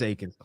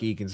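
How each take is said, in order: First: The name begins with an 'ay' vowel. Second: The name begins with an 'ee' vowel. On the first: The speaker calls it right. "but yeah, it's Akins" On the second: The speaker calls it wrong. "It looks like Eakins"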